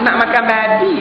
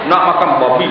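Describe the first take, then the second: First: The word babi is said softly and gently. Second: The word babi is said hard and forcefully. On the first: The speaker calls it wrong. "bukan boleh sebut lembut-lembut tak sedap" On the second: The speaker calls it right. "Bau bunyi itu sedap sikit"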